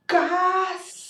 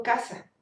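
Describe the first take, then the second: First: Casa with every sound pushed hard, higher and louder; over-articulated casa. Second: Said in the usual way. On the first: Shown as a demonstration. Teacher demonstrating an exaggerated casa to students. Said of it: "porque yo no digo". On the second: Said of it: "Yo digo casa".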